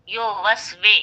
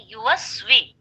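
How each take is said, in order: First: यो वस वे with a rounded yo sound; wrong yo pronunciation. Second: युवस वी with a clear yu like English U; correct yu pronunciation. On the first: Teacher demonstrating the mistaken यो reading. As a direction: say यो वस वे with an o vowel, the wrong way. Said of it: "वो गलत है". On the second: Teacher showing students the correct युवस वी. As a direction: say युवस वी with a pure u vowel. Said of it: "मारूफ तरीका क्या है?". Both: Shown as a demonstration.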